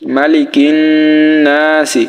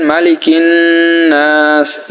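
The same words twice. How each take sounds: First: "নাসি" ending in a sounded short i; slow "মালিকিন নাসি" with the last vowel said; spelled-out reading. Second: "নাস" held long, closing on a bare s; drawn-out "মালিকিন নাস" with a pausal ending; stopped three-alif reading. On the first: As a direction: voice the final vowel of "নাসি" after a held nn. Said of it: "সিন জির সি". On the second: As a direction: stretch the a of "নাস", no vowel after the s. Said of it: "তিন আলিফ টান হবে". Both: Shown as a demonstration.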